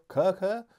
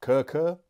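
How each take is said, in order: First: Kurkur said higher, with a rising question; settled pronunciation. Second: Kurkur said KUR-kur with a questioning rise; trying out Kurkur, rising, unsure; unsure pronunciation. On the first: Reviewer trying the brand name once more, higher and rising. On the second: Reviewer guessing the brand name aloud, rising and unsure. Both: Shown as a demonstration. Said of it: "I don't know how you say it".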